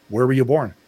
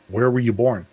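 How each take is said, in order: Both takes have the same delivery.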